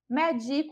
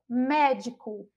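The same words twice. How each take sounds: First: The stress is on the second syllable. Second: The stress is on the first syllable. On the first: It means I give medicine to someone. "que é paroxítona" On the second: It names a professional. "Enquanto proparoxítona"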